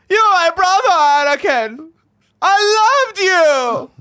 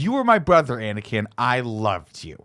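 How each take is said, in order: First: It is said imitating Obi-Wan's film delivery. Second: It is said plainly, in his own voice.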